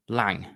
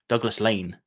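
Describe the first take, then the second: First: The name ends with an 'ng' sound. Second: The name ends with an 'n' sound. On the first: "they call themselves Lang" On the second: "it's Lane, Douglas Lane"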